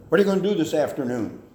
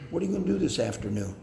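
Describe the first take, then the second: First: Louder, fast interrogating demand; a parent interrogating the child, louder and sharp; harsh demand. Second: Fast, easy, friendly ask; friendly question. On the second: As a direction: ask it lightly and kindly. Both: Shown as a demonstration. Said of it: "rather than".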